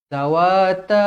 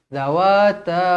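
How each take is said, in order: Both takes have the same delivery.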